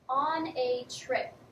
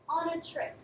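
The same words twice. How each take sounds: First: The words are said separately and clearly. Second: The words run together in connected speech.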